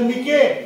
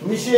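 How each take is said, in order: First: It is read with a short i and a k. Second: It is read with a short i and sh. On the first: "तिथं तुम्ही काय करसाल, मिके" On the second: "मिशे असं वाचणार काही जण"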